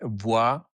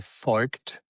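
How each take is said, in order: First: The name is said with a French pronunciation. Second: The name is said with a southern German pronunciation. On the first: "In France, you would say" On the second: "In southern part, you would say"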